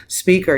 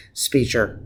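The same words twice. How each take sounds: First: "speaker" said right, with a clear k, laughing and higher; corrected with a laugh. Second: "speaker" slipped as "speecher" with a ch sound; slurred speaker. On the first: Catching own slip while praising Obama, laughing. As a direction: laugh and fix it: "spee-ker". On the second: Praising Obama's speaking, tongue slips on "speaker". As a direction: stumble on "speaker", saying "spee-cher". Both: Real, not acted.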